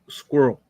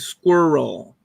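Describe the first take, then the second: First: The word is shortened, not fully pronounced. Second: The word is pronounced fully with every syllable. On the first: "I'm not even saying the full word" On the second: "It's supposed to be squirrel"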